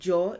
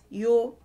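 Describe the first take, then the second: First: The syllable begins with a j sound. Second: The syllable begins with a y sound. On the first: "instead of jaw" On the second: "it's yo"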